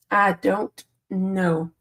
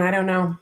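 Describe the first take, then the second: First: Slow, stretched-out "I don't know"; slowly drawn-out "I don't know"; drawn-out resigned. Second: Said in the usual way. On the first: Real, not acted. Repeats the phrase a second time.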